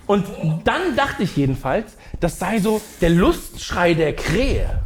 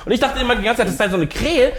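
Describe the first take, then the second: First: Dry. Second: Chuckling through the line; telling it while laughing. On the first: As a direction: say it bone dry, no laughing. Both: Shown as a demonstration. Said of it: "ich mach's nochmal ein bisschen trockener".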